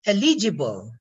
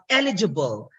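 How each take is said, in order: First: First "eligible" stressed on the second syllable, e-LI-gible; "eligible" said e-LEE-ji-bol; Filipino-English stress. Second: "eligible" stressed on the first syllable, EL-igible; "eligible" said EL-i-juh-bul; standard stress. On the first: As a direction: punch LI in "eligible". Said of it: "The pronunciation in the Philippine English is eligible". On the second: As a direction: punch EL in "eligible". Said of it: "instead of eligible". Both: Shown as a demonstration.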